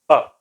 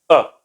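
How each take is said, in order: First: The vowel is a short central sound from the chest. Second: The vowel is a short central sound from the chest.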